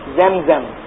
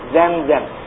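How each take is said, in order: No difference in how they are said.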